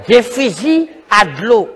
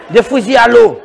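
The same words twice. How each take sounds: First: "Des fusils à de l'eau" slow and lower; slow, spaced-out "Des fusils à de l'eau"; deliberate repeat. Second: "des fusils à l'eau" at normal pace, firmer on "l'eau"; water-gun reveal. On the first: Repeats the water-gun name deliberately. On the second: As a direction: land firmly on "l'eau". Announces the new water guns. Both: Acted.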